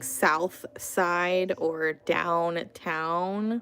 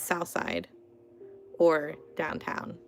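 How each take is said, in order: First: It is said carefully with every sound clear. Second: It is said quickly with sounds dropped or slurred. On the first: "instead of saying" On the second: "if I'm talking fast or lazy"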